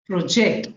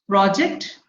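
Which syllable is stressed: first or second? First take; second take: second; first. First: The stress is on the second syllable. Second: The stress is on the first syllable. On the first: It is a verb. "If it is a verb, ... stress falls on the second syllable" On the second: It is a noun. "if it is a noun, it is on the in the beginning"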